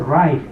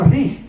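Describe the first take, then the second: First: The word has a long I and ends in T. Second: The word is read letter by letter, ending in G. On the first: The speaker knows English. The speaker calls it right. "pero si uno sabe, dice right" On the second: The speaker does not know English. The speaker calls it wrong. "si uno no sabe inglés va a pronunciar de esa manera"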